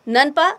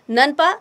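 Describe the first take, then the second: First: The abbreviation is said as one word. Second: The abbreviation is said as one word.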